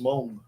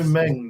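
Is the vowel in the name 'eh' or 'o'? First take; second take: o; eh. First: The vowel sounds like 'o' in song. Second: The vowel sounds like 'eh' in bed. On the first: "That's properly pronounced Mong" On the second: "you know"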